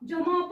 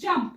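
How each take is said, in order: First: An extra vowel separates the m and p. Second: The m and p are joined without a vowel. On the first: The speaker calls it wrong. "जमप जमप असं नाही म्हणायचं" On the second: The speaker calls it right. "एमचा आवाज छोटासा करायचा आणि पीचा आवाज पूर्ण घ्यायचा"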